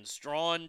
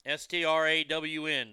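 First: Strawn spoken slowly as one syllable, after spelling it out; Strawn said clearly. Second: S T R A W N letter by letter, evenly; spelled out. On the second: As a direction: spell S T R A W N one letter at a time. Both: Shown as a demonstration.

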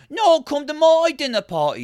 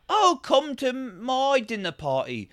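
First: High, louder rival invitation; insistent mock host. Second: Slow, high-pitched mock invitation; mock dinner-party host. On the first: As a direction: outbid another host in a high put-on voice. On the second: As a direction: invite in a drawn-out, put-on high voice. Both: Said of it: "It was a lot of just like".

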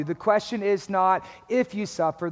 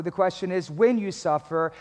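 First: "if" picked out as the rejected word; stress on IF. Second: "when" picked out as the correcting word; stress on WHEN. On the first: Preacher correcting the congregation's question, stress on "if". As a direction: lean on "if" to set up a contrast. Contrasts if with when. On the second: Preacher giving congregation the true question, stress on "when". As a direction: lean on "when" to answer the contrast. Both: Real, not acted.

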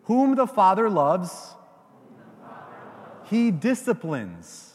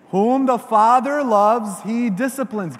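First: Slow, measured recitation; a line for the crowd to echo; recited for repeating. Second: Preacher leading the verse aloud; loud recitation. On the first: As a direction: say it so they can repeat it. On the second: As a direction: proclaim it for all to repeat. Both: Shown as a demonstration. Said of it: "say this with me".

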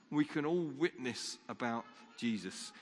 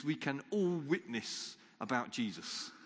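First: Said in the usual way. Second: All leaned on, said slowly; stress on all. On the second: Shown as a demonstration. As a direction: press the word all, slow and firm. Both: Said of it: "all of us".

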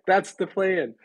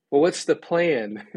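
First: THAT'S pitched high in an acted retort; high-pitched, pointed stress on "That's"; emphatic answer. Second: Imitated church people pressing for an answer, slow and higher; mock-puzzled question, drawn out; insistent questioning. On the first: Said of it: "And I'm like". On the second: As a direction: ask it slowly, pressing the point. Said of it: "They're like".

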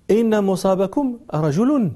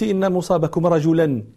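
First: رجل voiced as "rajulun", ending in -un; slow, with رجل given a full -un ending; nominative ending. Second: رجلا voiced as "rajulan", ending in -an; accusative ending. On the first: Audience objecting to the singer's verse, رجل ending in -un. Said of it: "هذا بيت فيه غلط". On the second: Challenging the singing girl's grammar, رجلا ending in -an. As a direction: end رجلا clearly on -an. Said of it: "كيف تقولين أنت".

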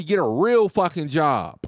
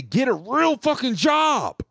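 First: Said in the usual way. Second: Mock yelled insult. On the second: Caller's parting insult to the telemarketer, slow mock yell. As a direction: yell it slowly in a mocking voice.

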